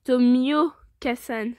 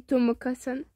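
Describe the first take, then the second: First: Slow, careful "Tomioka-san" with the i clearly sounded; deliberate "Tomioka-san", stretching the "mio"; corrected pronunciation. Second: "Tomoka-san" with the i left out; slurred-over name "Tomoka-san", missing its i; mispronounced name. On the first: Shown as a demonstration. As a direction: spell out "Tomioka-san" syllable by syllable. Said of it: "j'ai dit Tomoka-san". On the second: Real, not acted. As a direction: say "Tomoka-san", dropping the "mio" glide to "mo". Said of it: "c'est moi, j'ai dit Tomoka-san".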